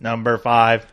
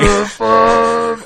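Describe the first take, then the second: First: It is said in a robot voice. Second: It is said in a normal speaking voice.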